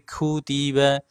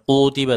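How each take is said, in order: First: The first k sound is light and thin. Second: The first k sound is heavy and thick. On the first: The speaker calls it right. "huruf kafnya diringankan lagi Bu" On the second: The speaker calls it wrong. "bukan kutiba"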